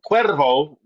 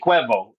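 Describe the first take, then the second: First: The R in the middle is rolled. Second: The R in the middle is dropped. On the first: "when you roll the R's" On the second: "they say Jose Cuevo"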